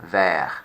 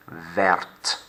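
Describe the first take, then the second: First: "vert" said with no t at the end, vair; silent final t. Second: "verte" slowly with a clear t at the end; slow, land on the t; final t sounded. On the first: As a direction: cut it off before the t. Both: Shown as a demonstration. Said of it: "Look what the addition of the E does when I speak".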